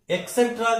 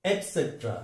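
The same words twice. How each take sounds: First: एटसेट्रा as "ek-setra"; a k instead of t in higher-pitched एटसेट्रा; common mispronunciation. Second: एटसेट्रा as "et-setra"; careful model of एटसेट्रा; correct pronunciation. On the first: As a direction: say एटसेट्रा with a mistaken k. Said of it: "बोलते हैं कई लोग". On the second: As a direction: clear t in the first syllable of एटसेट्रा. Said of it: "इसका सही उच्चारण". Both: Shown as a demonstration.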